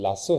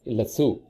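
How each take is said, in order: First: It is said in an American accent. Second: It is said in a British accent.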